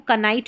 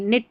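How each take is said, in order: First: The word begins with a pronounced K sound. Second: The word begins directly with an N sound. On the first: The speaker calls it wrong. "अब इसको कनाइट नहीं पढ़ेंगे" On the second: The speaker calls it right. "निट पढ़ेंगे"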